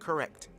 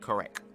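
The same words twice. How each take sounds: First: The word is said in an ordinary pronunciation. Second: The word is said in an imitated, unusual pronunciation. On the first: This is how it is usually said. "not correct" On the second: This is how someone else said it. "He said correct"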